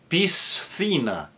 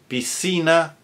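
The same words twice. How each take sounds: First: The sc is pronounced with a th sound. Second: The sc is pronounced with only an s sound.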